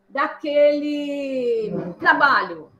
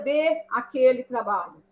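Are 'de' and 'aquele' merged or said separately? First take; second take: merged; separate. First: The two words are merged into one syllable chain. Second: The two words are said as separate words. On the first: The speaker calls it right. "eu estou cansada daquele, daquele trabalho" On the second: The speaker calls it wrong. "Ao invés de eu falar assim"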